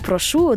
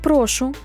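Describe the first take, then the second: First: The stress is on the second syllable. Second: The stress is on the first syllable. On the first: It means I ask or request something. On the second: It is a polite interjection meaning please.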